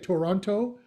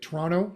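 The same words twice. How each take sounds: First: It is said the way non-Canadians say it. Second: It is said the way Canadians say it.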